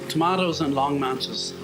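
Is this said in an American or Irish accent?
Irish. It is said in a non-American, Irish accent.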